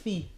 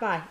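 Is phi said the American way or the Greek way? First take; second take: Greek; American. First: Phi is said the way Greek says it. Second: Phi is said the usual American English way. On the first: The speaker calls it right. "That's how you actually say the Greek letter" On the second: The speaker calls it wrong. "It's not phi"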